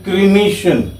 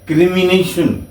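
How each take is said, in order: First: It is said without an extra 'ni' syllable. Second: It is said with an extra 'ni' syllable. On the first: The speaker calls it right. "It is क्रीमेशन" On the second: The speaker calls it wrong. "इसको आमतौर पे लोग गलत बोलते हैं"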